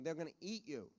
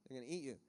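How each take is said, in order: First: Said in the usual way. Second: Repeated softer and lower, sinking away; a hushed warning echoed back; quiet echo. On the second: Shown as a demonstration. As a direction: let the repeat drop to an undertone.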